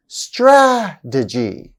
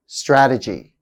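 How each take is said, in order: First: "Strategy" very slow, long strong first syllable; slow, stressed first syllable. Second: Said in the usual way. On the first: Shown as a demonstration. Teacher showing third-from-end stress, slow demo. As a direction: stretch and punch the start of "Strategy". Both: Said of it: "stress on the third syllable".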